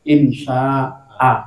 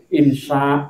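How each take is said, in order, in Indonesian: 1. Kata ini berakhir dengan vokal pendek 'a'. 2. Kata ini berakhir tanpa vokal di akhir. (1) "Mestinya itu dibaca harokat fathah tapi pendek" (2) "Mboten insya, mboten ngoten"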